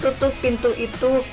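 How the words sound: It is said in a calm, polite tone. It is a courteous request. The speaker calls it right. "Itu kalimat yang sopan"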